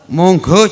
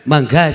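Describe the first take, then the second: First: The word is said with rounded o vowels. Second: The word is said with open a vowels. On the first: This is the Javanese way of speaking. "kalau Jawa lebih banyak O" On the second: This is the Sundanese way of speaking. "Kalau Sunda lebih banyak A"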